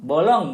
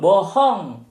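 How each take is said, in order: First: The middle consonant is a clear L sound. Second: The L is replaced by an H sound. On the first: The speaker calls it right. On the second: The speaker calls it wrong.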